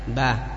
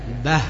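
First: The final h is lost and barely heard. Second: The final h has clear audible breath. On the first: The speaker calls it wrong. "Jangan hanya sekedar bah. Bah, hilang suaranya" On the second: The speaker calls it right. "ketika membaca H yang sukun tetap diperjelas makhrajnya biar nampak"

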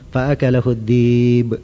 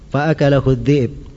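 First: The glottal stop in dhi'b is softened into a vowel. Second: The glottal stop in dhi'b is clearly pronounced. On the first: This is another reading tradition. "Kalau bacaan mereka fa'akalahu dhi'b. Nah, itu diringankan" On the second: This is the usual reading. "Itu di bacaan kita kan?"

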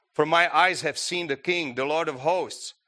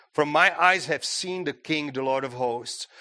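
Both takes have the same delivery.

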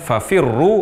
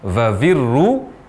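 First: The word is said with f sounds. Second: The word is said with v sounds. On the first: The speaker calls it right. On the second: The speaker calls it wrong.

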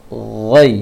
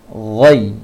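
The two takes are said the same way.

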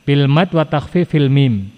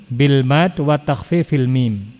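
No difference in how they are said.

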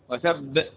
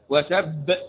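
First: The final b is doubled with a bouncing release. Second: The final b is doubled with a bouncing release.

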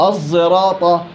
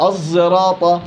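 The two takes are said the same way.

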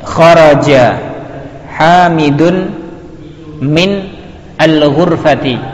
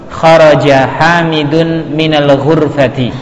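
First: The words are read one by one, separately. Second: The words are read joined in one flow.

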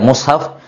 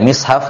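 First: The first vowel is a u sound. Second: The first vowel is an i sound. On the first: "di dhamma" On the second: "yang paling afsah adalah di kasrah, dibaca mishaf"

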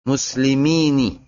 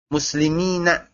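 First: The word ends with an 'ee' vowel. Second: The word ends with an 'ah' vowel. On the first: The speaker calls it wrong. "sedikit sekali orang yang menggunakan kasrah muslimini" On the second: The speaker calls it right. "awil fathah, muslimina ... itu lebih afsah"

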